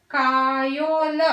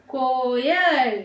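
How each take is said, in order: First: कायोल drawn out slowly with a long aa; wrong spelling read out. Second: कोयल very slowly, with a clear long o; correct pronunciation. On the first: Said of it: "wrong है". (गलत उच्चारण कायोल, धीरे) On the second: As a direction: stretch out कोयल, stressing को. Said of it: "हम कहाँ पे pronounce कर रहे हैं". (सही उच्चारण कोयल, धीरे) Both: Shown as a demonstration.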